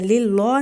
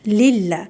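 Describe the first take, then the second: First: The L sound is thick and heavy. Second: The L sounds are thin and light. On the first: The speaker calls it wrong. "नहीं कर देना" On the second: The speaker calls it right. "ये लाम दोनों बारीक है"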